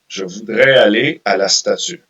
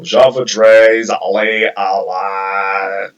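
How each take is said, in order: First: It is said with a clear French accent. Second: It is said with an English speaker's accent.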